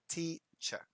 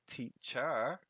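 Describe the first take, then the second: First: The stress is on the first syllable. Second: The stress is on the second syllable. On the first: The speaker calls it right. "the emphasis is on the first syllable" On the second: The speaker calls it wrong. "it would sound strange"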